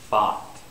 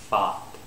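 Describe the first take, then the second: Both takes have the same delivery.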